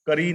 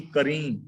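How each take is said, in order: First: ਕਰੀ with an un-nasal final ee; ਕਰੀ, no nasal on the last vowel; wrong reading ਕਰੀ. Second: ਕਰੀਂ with a nasalised final een; ਕਰੀਂ, last vowel nasal; correct reading ਕਰੀਂ. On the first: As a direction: say ਕਰੀ with an oral ending. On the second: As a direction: let ਕਰੀਂ end through the nose. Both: Shown as a demonstration. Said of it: "ਕਰੀ ਨਹੀਂ".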